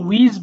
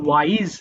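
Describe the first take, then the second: First: The vowel is a short 'i' sound. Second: The vowel is an 'eye' sound. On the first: The speaker calls it wrong. "এটা কিন্তু উইজ বলো না" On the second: The speaker calls it right. "এটা হবে ওয়াইজ"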